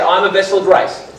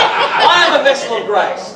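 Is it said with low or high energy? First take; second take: low energy; high energy. First: It is said calmly, with ordinary energy. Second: It is said loudly, with lively energy.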